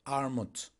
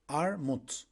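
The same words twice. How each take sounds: The two takes are said the same way.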